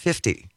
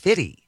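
First: The middle f sound is pronounced clearly. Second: The middle f sound is dropped. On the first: The speaker calls it right. "I pronounced it 50" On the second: The speaker calls it wrong. "no, it's Fitty"

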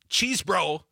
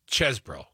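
First: The first syllable sounds like the word cheese. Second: The first syllable has a short e vowel. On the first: The speaker calls it wrong. "It's not cheese bro" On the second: The speaker calls it right. "it's ches bro. Put another way, the E, is like dessert, not desert"

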